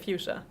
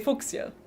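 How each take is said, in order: First: It is pronounced the English way. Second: It is pronounced the German way. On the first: "in English, I would say fuchsia" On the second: "In German, I would also say fuchsia"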